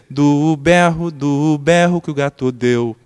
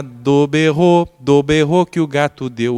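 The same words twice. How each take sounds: First: "berro" drawn out slowly and loud, the stress placed to fit the tune; right stress on do-BER-ro. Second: "berro" stretched and loud with the open "é" swallowed; wrong stress on do BERro. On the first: Pastor demonstrating the right sung stress to the host, slow. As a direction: sing "do berro" slowly with the right strong beat. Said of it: "Então, deveria ser". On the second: Pastor demonstrating the wrong sung stress to the host, stretched. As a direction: sing "do berro" with the beat landing on berro, like a gato's yell. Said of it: "O que que é do berro?".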